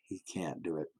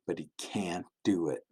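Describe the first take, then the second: First: Hushed whispered repeat of "He can't do it.". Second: Said in the usual way. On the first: Acted. Preacher whispers the son's failure to the children. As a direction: drop to a sad whisper on "He can't do it.".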